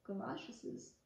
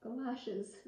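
First: Galoshes misread as "galosh-es-iz" with an extra syllable; garbled ending on galoshes, said as kəlɑʃəsɪz; stumbled word. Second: Galoshes said cleanly as "ga-LOSH-iz"; corrected word. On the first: Reader trips over galoshes, saying an extra syllable. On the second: Reader corrects herself, Galoshes said properly. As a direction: fix the slip, Galoshes with two clean unstressed ends. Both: Shown as a demonstration.

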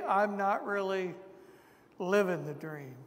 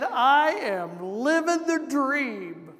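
First: Said in the usual way. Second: Slow, drawn-out mock cheer on living; imitating a man who says it with heavy sarcasm; a man answering how are you doing, dry sarcastic drawl. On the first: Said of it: "as if to say". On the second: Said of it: "he said it in a very sarcastic tone".

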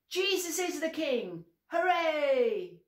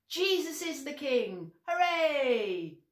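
First: High loud joyful cheer on Hooray. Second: High loud joyful cheer. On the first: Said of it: "Let's practice". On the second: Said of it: "we say very loudly". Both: Shown as a demonstration. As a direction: cheer it out as loud as you can.

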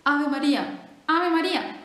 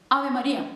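First: Loud, emphatic repetition; teaching friar. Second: Loud, deliberate prompting; teaching friar. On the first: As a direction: drill it loudly into the bird. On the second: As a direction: say it firmly for the parrot to copy. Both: Acted. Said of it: "le decía".

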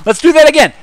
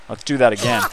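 First: Let's do THAT again, pitched way up and louder; high excited repeat. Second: Said in the usual way. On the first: Shown as a demonstration.

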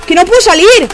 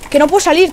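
First: Loud, higher, fed-up cry; frustrated shout. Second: Said in the usual way. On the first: Real, not acted. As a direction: shout that you're stuck. Stuck in the game.

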